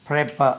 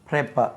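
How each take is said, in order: No difference in how they are said.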